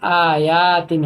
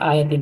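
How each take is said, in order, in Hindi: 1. बीच का स्वर लंबा खींचा जाता है। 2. बीच का स्वर छोटा है। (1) "अगर कॉम्बिनेशन होता तो आयातिन होता" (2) "ये सिर्फ आयतिन है"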